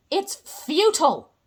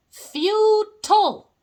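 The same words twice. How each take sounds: First: Said in the usual way. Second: Futile drawn out slowly, loud and higher; dramatic stress on futile. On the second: Shown as a demonstration. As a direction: intone Futile like a grim verdict.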